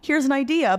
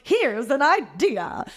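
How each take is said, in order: First: It is said in a calm, plain way. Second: It is said in an overly eager, bright way. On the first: The idea is offered simply. The speaker calls it right. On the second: The speaker is trying too hard to please. The speaker calls it wrong.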